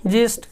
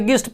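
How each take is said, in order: First: The word begins with a j sound. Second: The word begins with a hard g sound. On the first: The speaker calls it right. "इसका पढ़ना है क्या" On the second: The speaker calls it wrong. "लोग इसको गलती से गिस्ट पढ़ देते हैं"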